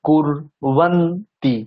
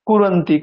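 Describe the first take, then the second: First: The r is stressed and closes the first syllable. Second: The word is run together without stressing the r. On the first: The speaker calls it right. "রয়ে stress কুর" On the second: The speaker calls it wrong. "এরকম বলে দিলে হবে না"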